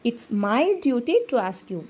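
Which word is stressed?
duty. The stress falls on the word duty. Asking is a duty, which is the reason for asking. "இதுவே இது என்னோட கடமை, அதனால தான் நான் கேட்குறேன்"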